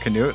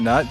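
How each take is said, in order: First: It is said with a k sound before nut. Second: It is said as nut, with no k sound. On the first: "you can go for Canute" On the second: "I pronounce it Deku Nut"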